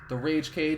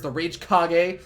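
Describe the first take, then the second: First: The last word sounds like English cage. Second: The last word sounds like Japanese kage. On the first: "it's pronounced the Rage Cage" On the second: "Also pronounced as the Rage Kage because Naruto"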